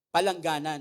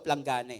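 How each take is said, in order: First: It has four syllables, with a vowel after p. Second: It has three syllables, with no vowel after p.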